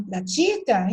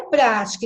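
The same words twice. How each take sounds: First: "pratica" stressed on TI, pra-TI-ca; contrasting wrong form. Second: "prática" stressed on PRÁ; correct form. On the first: Teacher rejecting the unaccented form, middle stress on "pratica". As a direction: push the stress onto TI in "pratica". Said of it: "e não pratica". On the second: Teacher contrasting two words, first-syllable stress on "prática". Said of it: "indicar a pronúncia correta". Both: Shown as a demonstration.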